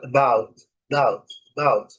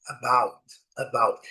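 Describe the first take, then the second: First: "about" with the first vowel almost swallowed, like 'bout; barely audible schwa. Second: "about" with its first vowel audible, stress on the second syllable; full careful form. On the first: Teacher showing the weak syllable, "about" reduced to 'bout. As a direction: stress the second syllable of "about", nearly drop the first. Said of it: "muitas vezes ela não é nem inteligível". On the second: Teacher introducing the example word, "about" with both syllables audible. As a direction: say "about" fully as uh-BOUT. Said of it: "a sílaba forte está em amarelo".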